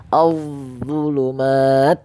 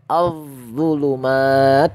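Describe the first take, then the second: No difference in how they are said.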